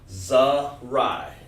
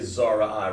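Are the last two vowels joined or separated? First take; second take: joined; separated. First: The vowels are blended into one syllable. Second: The vowels are said as separate syllables. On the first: The speaker calls it right. "We said Zarai" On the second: The speaker calls it wrong. "you don't want to say Zara I"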